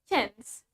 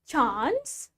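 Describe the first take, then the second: First: The A vowel is short, American style. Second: The A vowel is long, British style. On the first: "In American accent" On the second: "In British accent"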